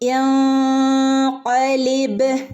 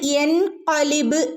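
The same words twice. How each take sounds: First: The n sound is hidden and nasalized. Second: The n sound is pronounced fully and clearly. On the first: The speaker calls it right. "ആ നൂനിനെ നമ്മൾ എന്ത് ചെയ്യുന്നു? മറച്ചു പിടിക്കുന്നു" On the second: The speaker calls it wrong. "നമ്മൾ യൻഖലിബ് എന്നവിടെ ഓതൂല്ല"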